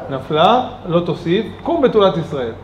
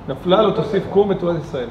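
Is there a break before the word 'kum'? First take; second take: yes; no. First: There is a break before kum. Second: It flows without a break before kum.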